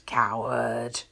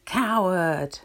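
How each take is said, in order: First: Low, mildly angry call; understated angry shout, pitched down; angry yell. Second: Loud echo of an angry call; louder, drawn-out answering cry; echoed insult. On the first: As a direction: throw the insult out low and cross. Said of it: "Angered with this response, he screams". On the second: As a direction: ring the word back from the mountain. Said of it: "He receives the answer". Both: A narrator's reading.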